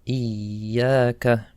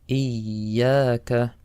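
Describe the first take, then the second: Both takes have the same delivery.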